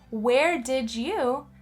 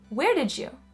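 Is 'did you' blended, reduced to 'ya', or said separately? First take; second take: separately; blended. First: Each word is said fully and separately. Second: 'Did' and 'you' run together into one sound. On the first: The speaker calls it wrong. "Instead of saying" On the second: The speaker calls it right. "another case of connected speech"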